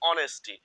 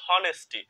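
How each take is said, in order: First: The word begins with a vowel, no h. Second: The word begins with an audible h sound. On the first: The speaker calls it right. "এটার সঠিক উচ্চারণ হচ্ছে অনেস্টি" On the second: The speaker calls it wrong. "অনেকে কিন্তু এই বানানটা পড়ে হনেস্টি"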